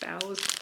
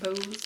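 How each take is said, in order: First: The vowel rhymes with 'cow'. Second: The vowel rhymes with 'go'. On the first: The speaker calls it right. "Boughs is how you pronounce it" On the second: The speaker calls it wrong. "not bows"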